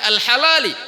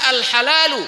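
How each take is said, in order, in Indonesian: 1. Kata ini berakhir dengan vokal i. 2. Kata ini berakhir dengan vokal u. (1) "ada orang membacanya wal halali" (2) "al halalu bayyinun"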